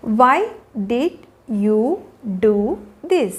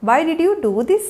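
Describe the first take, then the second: First: Very slow, each word separated. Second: Said in the usual way. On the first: Shown as a demonstration. Teacher showing learners how to question a child, word by word. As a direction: leave a clear gap after every word.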